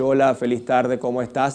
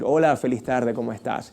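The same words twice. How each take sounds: First: The pitch stays flat without rising or falling. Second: The pitch rises and falls throughout the phrase. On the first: The speaker calls it wrong. "En vez de decir" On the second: The speaker calls it right. "Ese subir y bajar"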